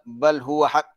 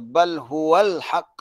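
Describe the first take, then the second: First: The L sound before 'haq' is dropped. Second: The L sound before 'haq' is clearly pronounced. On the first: The speaker calls it wrong. "Tapi ada yang baca" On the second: The speaker calls it right. "Kata bal huwal haq. Kena angkat lidah ke langit"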